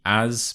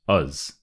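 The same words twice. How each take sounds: First: "as" with a full, open A vowel; full form of "as". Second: "us" with a reduced schwa, like "uz"; weak form of "as". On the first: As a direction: say "as" in its strong form, unreduced. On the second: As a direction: weaken "as" to a short "us". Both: Shown as a demonstration. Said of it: "the as becomes a us".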